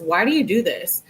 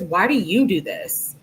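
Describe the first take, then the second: First: Said in the usual way. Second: "you" punched as a retort; stress on YOU. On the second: Acted. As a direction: throw the question back, leaning on "you". She throws his question back.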